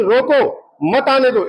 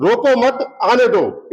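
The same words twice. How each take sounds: First: "रोको" drawn out slowly and rising, then a break before "मत"; slow "रोको... मत आने दो", phrased as stopping them; refusal reading. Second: "रोको मत, आने दो" run as one easy phrase, a light lift on "रोको"; "रोको मत" flows straight into "आने दो", a casual go-ahead; permission reading. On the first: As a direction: stretch "रोको" with a rising tune and split the phrase after it. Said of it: "इसका मतलब permission नहीं है". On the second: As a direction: say "रोको मत, आने दो" plainly, as letting them in. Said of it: "इसका मतलब है ये हमको परमिशन दे रहा है आने की".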